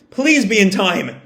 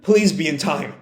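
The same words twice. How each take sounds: First: Slower, desperate plea; pleading. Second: Said in the usual way. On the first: Retold or imitated. Yamato racing to the armory, pleading slowly. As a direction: beg it slowly. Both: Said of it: "Yamato just repeats to himself".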